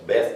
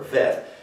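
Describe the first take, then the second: First: The word begins with a B sound. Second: The word begins with a V sound. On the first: "for our B, as in boy" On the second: "or for our V, as in very"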